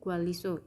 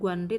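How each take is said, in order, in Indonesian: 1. Bunyi tengahnya menyatu menjadi bunyi l. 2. Bunyi tengahnya adalah n diikuti r. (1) "tapi Gwaliso" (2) "ini bukan Guanri"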